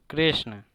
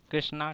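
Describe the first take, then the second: First: कृष्ण with only a brief schwa at the end; कृष्ण ending short, not in a long aa; short final vowel. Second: कृष्णा with a long open aa at the end; कृष्णा ending in a full aa; popular long-aa ending. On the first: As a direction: say कृष्ण without lengthening the last vowel. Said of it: "कृष्ण को बहुत से लोग कृष्णा कहते भी हैं". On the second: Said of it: "कृष्णा कहते भी हैं". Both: Shown as a demonstration.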